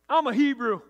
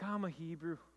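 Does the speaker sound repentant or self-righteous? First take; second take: self-righteous; repentant. First: It is said in a proud, preachy tone. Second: It is said in a humble, contrite tone. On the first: He is boasting about his faith. "Or is he self-righteous? Is he like, hey" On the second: He is confessing with remorse. "Is he repentant?"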